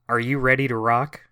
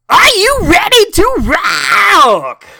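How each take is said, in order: First: It is said in a calm, ordinary voice. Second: It is shouted loudly with lots of energy.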